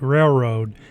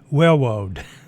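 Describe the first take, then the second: First: The R sounds are pronounced as clear Rs. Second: The R sounds come out sounding like Ws.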